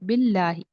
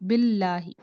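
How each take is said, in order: First: The L sound is thin and light. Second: The same.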